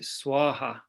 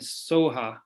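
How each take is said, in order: First: The first syllable sounds like 'swa'. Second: The first syllable sounds like 'so'. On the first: This is how someone better at Sanskrit says it. "sometimes you would pronounce it Swaha, I think, if you're being better at Sanskrit" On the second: This is the usual way of saying it. "usually they always end in Soha"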